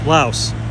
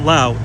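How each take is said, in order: First: The name ends with an s sound. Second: The name ends without an s sound.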